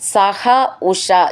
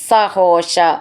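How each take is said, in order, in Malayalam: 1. വാക്കുകൾ ഇടവേളയോടെ വേർതിരിച്ചാണ് ചൊല്ലുന്നത്. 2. വാക്കുകൾ ഒന്നായി ചേർത്താണ് ചൊല്ലുന്നത്.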